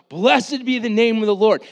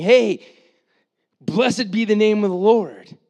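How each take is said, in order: First: Loud and high, blessed hit hard; crowd shouting praise. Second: Loud and high, Hey called out; crowd shouting praise. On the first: Preacher voicing the cheering crowd, loud and high. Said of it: "they start yelling out". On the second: Preacher voicing the fickle crowd's praise, loud. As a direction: hail him like a joyful crowd. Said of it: "people that's going". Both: Retold or imitated.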